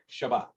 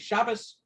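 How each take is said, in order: First: It is said in Sephardic Hebrew pronunciation. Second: It is said in Ashkenazi Hebrew pronunciation.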